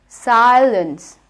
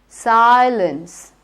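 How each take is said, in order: The two takes are said the same way.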